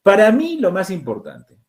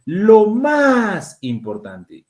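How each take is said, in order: First: Said in the usual way. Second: Más hit higher and louder, whole phrase very slow; stress on más. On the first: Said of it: "tengo una tilde". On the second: Shown as a demonstration. Teacher to class, slow with stress on más. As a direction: lean hard on más, slowly. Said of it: "esta es una tilde de cantidad".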